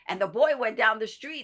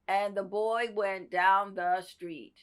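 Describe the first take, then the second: First: It is read expressively, with lively energy. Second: It is read flatly, with little expression. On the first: The reader is acting the scene with the performer. The speaker calls it right. "somebody who can read it with you, who can say" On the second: The reader is only reading the words aloud, not acting. The speaker calls it wrong. "somebody who's just saying"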